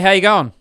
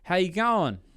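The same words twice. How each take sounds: First: It is loud, sharp, and stays flat at the end. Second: The pitch rises at the end like a question. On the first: The speaker projects confidence that commands respect. "you notice that tonality, it's very sharp" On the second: The speaker is seeking rapport. "There's a questioning tone"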